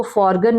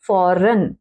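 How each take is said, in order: First: फॉरगन with a hard g; mispronunciation. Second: फॉरेन with silent g; correct pronunciation. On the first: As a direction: sound the g in फॉरगन. (ग बोलकर फॉरगन) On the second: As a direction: say फॉरेन ending straight on n. (ग चुप रखकर फॉरेन) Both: Shown as a demonstration. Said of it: "इसको फॉरगन नहीं पढ़ेंगे".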